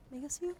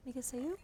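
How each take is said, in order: Both takes have the same delivery.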